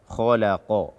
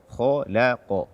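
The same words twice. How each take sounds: No difference in how they are said.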